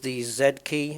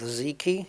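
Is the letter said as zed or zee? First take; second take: zed; zee. First: The letter is said as zed, British style. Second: The letter is said as zee, American style.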